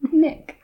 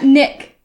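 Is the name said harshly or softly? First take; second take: softly; harshly. First: The name is said with a softer start. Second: The name is said with a harsh start. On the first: The speaker calls it right. "It's less harsh" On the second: The speaker calls it wrong. "Not Nick"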